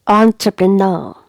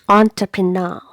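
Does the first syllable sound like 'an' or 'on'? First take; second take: on; on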